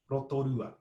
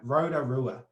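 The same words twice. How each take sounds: First: The r is tapped; the t is not. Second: The t is tapped; the r is not. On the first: "we're going to pop it on the R" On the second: "your most New Zealand English pronunciation of Rotorua"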